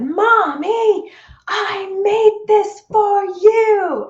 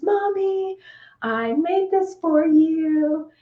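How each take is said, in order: First: Put-on high, loud, slow childlike yell; a little girl shouting to get her mother's attention; child yelling. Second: Put-on high, slow childlike voice offering a gift; a small girl holding out her egg; little daughter's voice. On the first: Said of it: "And she yelled it". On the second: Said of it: "And she says".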